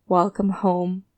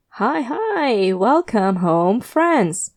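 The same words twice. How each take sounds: First: Bored monotone. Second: Nasal voice. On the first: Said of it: "with the enthusiasm of a houseplant". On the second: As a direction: gush out a creepy cheerful welcome. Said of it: "His nasal voice tears through the silence". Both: A narrator's reading.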